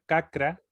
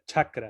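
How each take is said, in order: First: The word begins with a hard k sound. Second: The word begins with a ch sound. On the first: The speaker calls it wrong. "en vez de pronunciar cacra" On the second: The speaker calls it right. "se pronuncia chakra"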